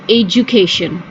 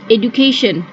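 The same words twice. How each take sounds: First: The middle consonant is a j sound. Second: The middle consonant is a plain d sound. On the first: The speaker calls it right. "it's pronounced with J, which is education" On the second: The speaker calls it wrong. "People often pronounce the D as education"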